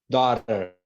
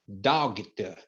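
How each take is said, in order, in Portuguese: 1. O gh é mudo, sem som de g. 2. O gh é pronunciado como um g duro. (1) "É daughter" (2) "Não é dogter"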